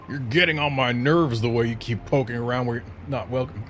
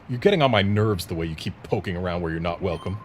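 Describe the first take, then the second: First: It is read in a strained, put-on character voice. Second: It is read in the speaker's ordinary natural voice. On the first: "I cannot do that voice" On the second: "we just do regular reading instead of doing voices"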